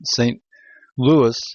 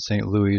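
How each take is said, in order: First: The name is pronounced the English way. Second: The name is pronounced the French way. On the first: "is the English version of it" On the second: "is the French"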